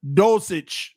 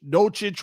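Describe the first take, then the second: First: Dulcich said "DOLE-sitch". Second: Dulcich said "DOLE-chitch". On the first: Trying a tight end's name, Dulcich as "DOLE-sitch". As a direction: say Dulcich with an s sound mid-word. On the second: Retrying a tight end's name, Dulcich as "DOLE-chitch". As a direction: say Dulcich with a ch sound mid-word. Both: Real, not acted. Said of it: "however you pronounce it".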